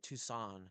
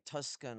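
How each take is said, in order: First: The name is said with no k sound inside. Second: The name is said with a k sound inside. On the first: The speaker calls it right. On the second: The speaker calls it wrong. "I s- always pronounce it wrong"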